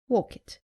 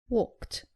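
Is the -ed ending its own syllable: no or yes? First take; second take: yes; no. First: The ending is an extra syllable sounding like id. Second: The ending adds no extra syllable to the word. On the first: The speaker calls it wrong. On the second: The speaker calls it right. "It is"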